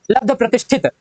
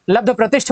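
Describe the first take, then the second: First: लब्ध प्रतिष्ठित ending in thit; extra final t. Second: लब्ध प्रतिष्ठ ending on th; no final t. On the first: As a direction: add it to the end of लब्ध प्रतिष्ठित. (लब्ध प्रतिष्ठित, अंत में त) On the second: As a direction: stop लब्ध प्रतिष्ठ at shth. (लब्ध प्रतिष्ठ, अंत में ठ) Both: Shown as a demonstration. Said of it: "त नहीं होता".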